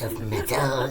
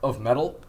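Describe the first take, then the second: First: It is said in the speaker's natural voice. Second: It is said in a put-on goblin voice.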